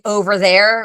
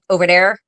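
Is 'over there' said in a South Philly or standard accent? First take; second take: standard; South Philly. First: It is said with a standard pronunciation. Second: It is said with a South Philly pronunciation. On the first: "We don't say over there" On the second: "We say over there"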